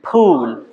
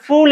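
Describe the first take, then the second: First: "ফুল" drawn out slowly as p-hool; slow, aspirated "ফুল"; correct aspirated phul. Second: "ফুল" with an English f, fool; common f pronunciation. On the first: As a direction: puff from closed lips into a long "ফুল". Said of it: "উচ্চারণটা কি হবে?". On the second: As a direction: say "ফুল" casually with lip on teeth. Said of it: "কিন্তু উচ্চারণটাই তো কি?". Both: Shown as a demonstration.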